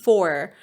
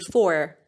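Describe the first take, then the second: Both takes have the same delivery.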